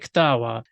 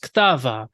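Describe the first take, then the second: First: The middle consonant is a W sound. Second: The middle consonant is a V sound. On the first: It is how Eastern speakers say it. "but we say Ktawa" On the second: It follows the older written form. "is actually spelled as Ktava"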